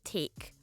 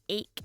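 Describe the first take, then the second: First: The word starts with a clear t. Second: The word starts with a glottal stop. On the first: The speaker calls it right. "instead of take" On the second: The speaker calls it wrong. "you can't say ache"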